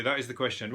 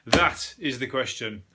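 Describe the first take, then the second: First: Said in the usual way. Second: Slow, hammed-up Shakespearean line; milk it like a stage tragedian, slowly; mock Hamlet. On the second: Hamlet line on wallaby doubt.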